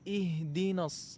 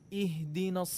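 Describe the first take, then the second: The two takes are said the same way.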